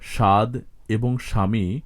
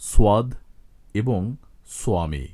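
First: No 'w' sound follows the initial 's'. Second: A 'w' sound follows the initial 's'. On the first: This is the Bengali pronunciation. "বাংলায়" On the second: This is the Sanskrit pronunciation. "সংস্কৃতে যথাক্রমে"

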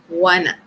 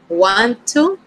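First: The words blend into one reduced word. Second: Both words are said fully and separately. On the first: The speaker calls it right. "That is going to be the pronunciation, wanna" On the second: The speaker calls it wrong. "No, okay, not this time"

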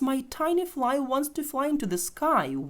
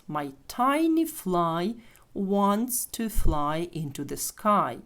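First: The sentence is spoken quickly. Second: The sentence is spoken slowly. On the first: "А тепер швидше" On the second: "ще раз повільно"

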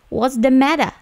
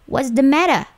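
First: It is said in a British accent. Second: It is said in a British accent.

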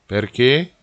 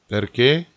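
No difference in how they are said.

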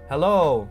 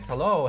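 First: The voice is boosted a bit too loud. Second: The voice is boosted to a moderate level. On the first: "6.3, I think that's a tad too much" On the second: "let's increase it again to 5.6"

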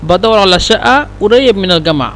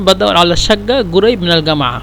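First: The q sound is said as a glottal stop. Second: The q sound is said as a gh sound. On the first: "যেহেতু এখানে হামজা যদি বলি এখানেও হামজা বলবেন" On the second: "আর যদি গয়ন বলেন তাহলে বলবেন"

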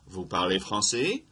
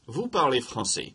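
First: The voice rises at the end like a question. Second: The voice falls at the end like a statement.

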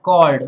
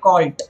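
First: The word ends with a D sound. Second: The word ends with a T sound. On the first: The speaker calls it right. "the D sound" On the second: The speaker calls it wrong. "Then don't make it called"

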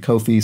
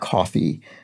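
First: It sounds like the name 'Kofi'. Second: It sounds like the drink 'coffee'. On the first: "they pronounced it Kofi" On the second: "I generally pronounce that coffee"

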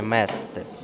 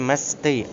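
First: The stress is on the first syllable. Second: The stress is on the last syllable. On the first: The speaker calls it wrong. "а не" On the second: The speaker calls it right. "мають наголос на останньому складі"

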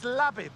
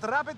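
First: The word begins with an L sound. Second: The word begins with an R sound.

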